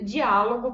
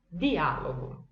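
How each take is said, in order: First: The word begins with a 'dj' sound. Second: The word begins with a plain 'd' sound. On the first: This is how Portuguese speakers would read it. The speaker calls it wrong. "a gente vai querer ler" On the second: This is the Italian pronunciation. The speaker calls it right. "a gente fala di"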